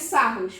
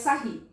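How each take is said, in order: First: The name ends with an 'oos' sound. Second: The name ends with an 'ee' sound. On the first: This matches how the name is written. "se escreve Sarros" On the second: This is how people usually say it. "mas a gente pronuncia Sarri"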